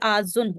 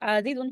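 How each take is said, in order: First: The two z sounds merge into one doubled z. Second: The two z sounds are separated by a vowel. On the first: This is the actual form with the sounds merged. The speaker calls it right. "ये आज़ुन हो गया" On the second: This is the expected form before merging. The speaker calls it wrong. "फ़ाइलुन के वज़न पे आज़ीज़ुन आज़ीज़ुन होता"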